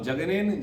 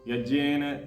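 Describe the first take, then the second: First: The word begins with a j sound. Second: The word begins with a y sound. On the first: The speaker calls it wrong. "जा तो है ही नहीं वहां" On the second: The speaker calls it right. "या है यज्ञेन"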